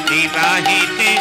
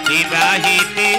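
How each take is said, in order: The two takes are said the same way.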